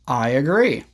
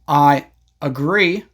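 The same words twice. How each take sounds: First: A small Y sound joins the words. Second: The words are separated with no Y sound. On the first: "you can connect them with a small Y sound" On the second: "Instead of saying"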